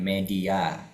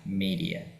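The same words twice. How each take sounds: First: It is pronounced the Indonesian way. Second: It is pronounced the English way. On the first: The speaker calls it wrong. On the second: The speaker calls it right.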